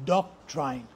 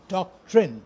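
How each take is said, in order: First: The word is said the common local way. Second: The word is said the standard English way. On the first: The speaker calls it wrong. "pronounce it as doctrine. Now, this is completely wrong" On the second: The speaker calls it right. "the correct pronunciation is doctrine"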